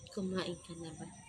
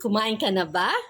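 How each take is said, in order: First: It is said in a sad way. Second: It is said in a happy way.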